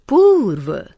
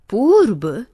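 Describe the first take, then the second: First: पूर्व ending in a "v" sound, "poorv"; correct pronunciation. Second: पूर्व ending in a "b" sound, "poorb"; wrong pronunciation. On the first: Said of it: "शुद्ध". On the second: Teacher showing students the mistaken form, with b for v. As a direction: end पूर्व with b. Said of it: "अशुद्ध". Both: Shown as a demonstration.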